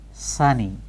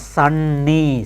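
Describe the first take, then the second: First: The n sound is short, said once. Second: The n sound is held long, doubled. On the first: The speaker calls it right. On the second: The speaker calls it wrong.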